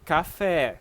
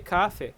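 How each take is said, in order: First: The stress is on the second syllable. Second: The stress is on the first syllable. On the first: The speaker calls it right. "You say café. Put all the stress in the syllable that has acento" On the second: The speaker calls it wrong. "you are putting the stress here in the first syllable"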